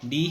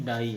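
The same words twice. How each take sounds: First: "ڈی" ending in long ee; spelling-based reading. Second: "ڈائی" ending in an eye sound; true sound of word. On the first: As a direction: say "ڈی" like the letter D. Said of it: "ڈی ہی ہے". ("ڈی"، حرف ڈی جیسی آواز) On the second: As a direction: open "ڈی" out into "ڈائی". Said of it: "لیکن ڈائی ہے". ("ڈائی"، آئی کی کھلی آواز) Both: Shown as a demonstration.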